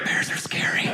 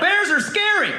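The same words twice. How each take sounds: First: It is spoken in a whisper. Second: It is spoken in a normal voice.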